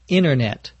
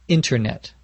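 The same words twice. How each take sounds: First: The middle T sound is left out. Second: The middle T sound is clearly pronounced. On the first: "as if there were no T" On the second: "If they're pronouncing it more carefully"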